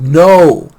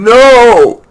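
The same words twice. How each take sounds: First: The word is said moderately loud. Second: The word is screamed very loudly.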